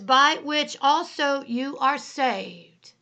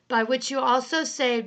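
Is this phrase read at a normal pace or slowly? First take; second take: slowly; normal. First: The phrase is read at a slow pace. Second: The phrase is read at a normal pace.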